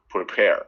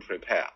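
First: It is said in a rhotic American accent. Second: It is said in a British accent.

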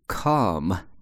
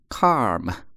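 First: The vowel is plain, with no r. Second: The vowel has an added r-coloring. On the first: The speaker calls it right. "正确的读法啊" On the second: The speaker calls it wrong. "都是错的"

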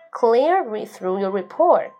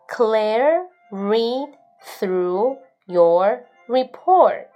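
First: The sentence is read at a normal, quicker pace. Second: The sentence is read at a slower pace.

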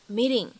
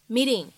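First: The t is a soft flap between t and d. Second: The same.

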